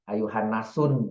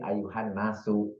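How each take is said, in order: First: The phrase ends with an 'n' sound. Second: The phrase ends on a vowel sound. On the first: The noun has no definite article. The speaker calls it wrong. "karena nggak pakai alif lam" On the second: The noun has the definite article. The speaker calls it right. "Tapi pakai alif lam"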